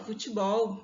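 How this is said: The unstressed vowels sound like 'i'.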